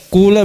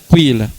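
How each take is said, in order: First: The first vowel is a pure u. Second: The first vowel blends u into i. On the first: "murni dhamma" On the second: "ismam itu dhamma campur kasra"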